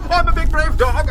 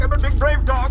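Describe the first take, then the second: First: Loud, high, put-on bragging; brave dog shout. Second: Said in the usual way. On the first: Bane psyching himself up in the woods, shouting. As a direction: bellow the brag. Bravado chant.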